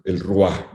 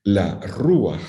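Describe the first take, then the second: First: El Ruach said with the masculine el, as the mistake to avoid; wrong masculine article. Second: La Ruach with the feminine la, stress on the u, ru-ACH. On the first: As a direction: say el Ruach as the wrong form, stress on the u. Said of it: "nunca digan esa barbaridad". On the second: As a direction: say La Ruach correctly, leaning on the u. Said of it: "es en femenino y es con el acento en la U". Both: Shown as a demonstration.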